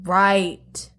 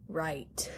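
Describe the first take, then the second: First: Said in the usual way. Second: Breathy whispered echo; whispering. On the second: Pretend. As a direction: whisper it to yourself. Same word echoed in a whisper.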